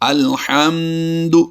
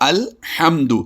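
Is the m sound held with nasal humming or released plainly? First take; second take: nasal humming; plainly. First: The m is held with a long nasal hum. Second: The m is released plainly without nasal hum. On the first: The speaker calls it wrong. "یہ غلط ہو جائے گا" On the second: The speaker calls it right. "غنہ بالکل نہیں کرنا"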